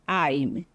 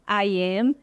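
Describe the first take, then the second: First: It is shortened into one contracted syllable. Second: It is said as two separate full words. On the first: "short forms" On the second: "I am fica como?"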